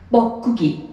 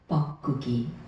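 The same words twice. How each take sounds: First: The word is said at normal loudness. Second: The word is said in a small, soft voice. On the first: The speaker calls it wrong. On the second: The speaker calls it right.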